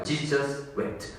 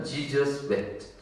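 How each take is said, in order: First: Each word drawn out, very slow and soft. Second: Said in the usual way. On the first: Shown as a demonstration. Preacher savouring the two-word verse, very slow. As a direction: let both words hang slowly. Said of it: "딱 두 단어밖에 없어요". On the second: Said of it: "엄청 짧아요".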